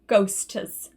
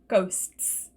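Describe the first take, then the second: First: An extra uh vowel breaks the final consonants. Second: The final consonants join with no extra vowel. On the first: The speaker calls it wrong. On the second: The speaker calls it right.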